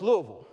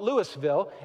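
First: It is said the Kentucky local way. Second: It is said the non-Kentucky outsider way.

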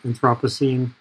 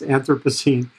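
First: The word is said with a British pronunciation. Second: The word is said with an American pronunciation. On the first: "My British friends say" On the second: "In the States, it's"

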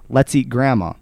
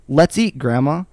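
First: There is no break before the word grandma. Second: There is a break before the word grandma. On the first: Grandma is the thing to be eaten. "or you're going to eat grandma" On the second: Grandma is being invited to eat. "you're either going to eat with grandma"

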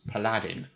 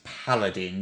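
First: The stress falls on the second syllable. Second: The stress falls on the first syllable. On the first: The speaker calls it wrong. "I've heard pronounced as paladin" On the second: The speaker calls it right. "The emphasis is on the first symbol"

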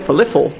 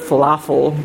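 First: The middle vowel sounds like 'ih'. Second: The middle vowel is a plain 'ah' sound. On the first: "they'll say falifel" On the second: "instead of falafel"

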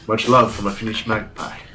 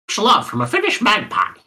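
First: It is read in a put-on male character voice. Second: It is read in a put-on bird-like voice. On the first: The speaker calls it right. "Dario Naharis voice" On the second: The speaker calls it wrong. "I'm reading it as if I'm a bird"

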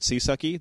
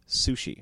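First: It is pronounced like 'sea-sucky'. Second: It is pronounced like 'sushi'. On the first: The speaker calls it wrong. "Rather than calling it Seasucky" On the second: The speaker calls it right. "they want you to pronounce it Sushi"

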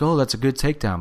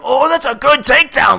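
First: It is said flatly, without energy. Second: It is said with excited, promo-style energy.

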